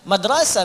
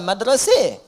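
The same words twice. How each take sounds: First: The final vowel is an open a sound. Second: The final vowel is shifted toward an e sound.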